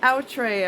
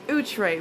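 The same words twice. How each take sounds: First: The name is said with English-style sounds. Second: The name is said with French-style sounds. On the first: The speaker calls it wrong. "I used to say Outre. ... That's not the right pronunciation" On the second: The speaker calls it right. "It's Outre, which is a French word"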